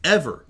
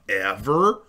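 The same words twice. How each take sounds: First: Ever punched high and loud; loud stress on Ever. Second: Quiet drawn-out Ever; soft stress on Ever. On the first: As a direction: hit the word Ever hard. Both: Shown as a demonstration. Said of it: "anything I ever thought".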